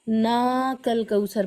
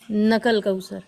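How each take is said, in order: First: The vowel after the first n is long. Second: The vowel after the first n is short. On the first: The speaker calls it right. "ना कल कौसर पढ़ना है, यानी खड़ा ज़बर का की रियायत करके" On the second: The speaker calls it wrong. "बाज़ लोग इसमें भी गलती करते हैं ... इस तरह पढ़ते हैं"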